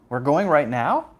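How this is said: The voice rises at the end. The speaker is surprised they are leaving now.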